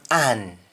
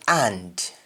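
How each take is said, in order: First: AN stopping at the N; Jamaican pronunciation. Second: AND with the final D sounded; English-style AND, full "nd"; English pronunciation. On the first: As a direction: drop the D, just AN. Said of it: "will become an". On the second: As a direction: finish AND on a clear D. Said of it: "ends with N D in English". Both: Shown as a demonstration.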